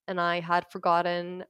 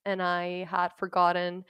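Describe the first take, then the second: No difference in how they are said.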